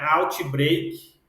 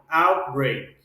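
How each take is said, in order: First: The middle T is clearly pronounced. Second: The middle T is almost dropped. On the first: The speaker calls it wrong. "não é outbreak" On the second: The speaker calls it right. "A gente praticamente não pronuncia esse T aqui"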